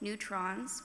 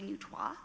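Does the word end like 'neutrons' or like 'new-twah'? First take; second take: neutrons; new-twah. First: The word ends with an 'ons' sound. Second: The word ends with a 'twah' sound. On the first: The speaker calls it wrong. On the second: The speaker calls it right.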